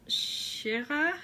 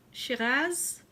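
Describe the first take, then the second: First: Shiraz said as shi-RAH, silent z, rising; French-style pronunciation. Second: Shiraz said with a sounded final z, rising; anglicised pronunciation. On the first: Wine drinker unsure of the name, Shiraz as questioning shi-RAH. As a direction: try Shiraz without its final z, unsure. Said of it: "it's a". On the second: Wine drinker trying the other name, Shiraz as questioning shi-RAZ. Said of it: "I'm not sure". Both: Shown as a demonstration.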